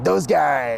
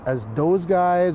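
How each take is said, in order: First: The name is said with a lively flourish. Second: The name is said plainly, without any flourish.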